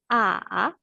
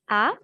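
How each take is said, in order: First: The pitch falls low, then rises. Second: The pitch rises from mid to high. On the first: "Descendant et montant" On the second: "Le ton qui monte"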